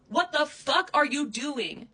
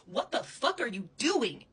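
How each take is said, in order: First: Louder, higher, slow furious shout. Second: Angry demand. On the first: Repeating the demand at Krissa, now screaming. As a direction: scream the question at her, slowly. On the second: Angry repeated question. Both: Real, not acted.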